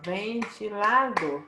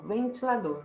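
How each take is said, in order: First: "ventilador" slowly split as ven-ti-la-dor; slow, divided "ventilador"; syllable by syllable. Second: Said in the usual way. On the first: Shown as a demonstration. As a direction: separate the four syllables of "ventilador". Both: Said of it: "Quatro sílabas".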